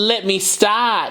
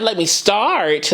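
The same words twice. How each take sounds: First: The r in start is dropped. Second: The r in start is pronounced. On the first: "So she took the R out"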